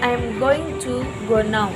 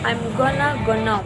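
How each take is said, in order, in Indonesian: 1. Going to diucapkan sebagai dua kata penuh. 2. Going to dipersingkat menjadi gonna. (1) "instead of" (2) "Gonna, going to"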